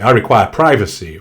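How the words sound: It is said in a low, creaky voice. "or perhaps done with more vocal fry"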